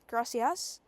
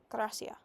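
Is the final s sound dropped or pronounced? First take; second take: pronounced; dropped. First: The final s sound is pronounced. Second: The final s sound is dropped.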